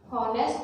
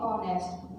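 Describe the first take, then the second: First: The word begins with an h sound. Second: The word begins with a vowel sound. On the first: The speaker calls it wrong. "इसकी आवाज हॉनेस्ट नहीं बोलते" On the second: The speaker calls it right. "हम इसे बोलते हैं ऑनेस्ट"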